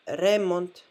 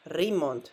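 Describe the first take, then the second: First: Remont with a full eh in the first syllable; remont, the wrong way on purpose; wrong pronunciation. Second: Remont said ree-MONT, e reduced to ee; right pronunciation. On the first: Teacher shows students the mistake, demo. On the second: Teacher shows students the correct way, careful. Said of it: "but remont". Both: Shown as a demonstration.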